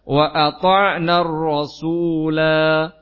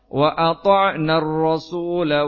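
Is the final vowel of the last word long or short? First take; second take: long; short. First: The final vowel is drawn out long at a stop. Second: The final vowel is short, running into next words. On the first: The reciter stops at this word. "kalau waqaf" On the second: The reciter continues without stopping. "kalau misalnya wasol"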